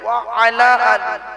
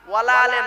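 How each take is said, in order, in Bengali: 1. এটি 'wa ala ali' হিসেবে আলাদা করে বলা হয়। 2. এটি 'wala ale' হিসেবে একসাথে জুড়ে বলা হয়। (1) "শব্দটা হলো কি? ওয়া আলা আলী" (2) "ওয়ালা আলে নয়"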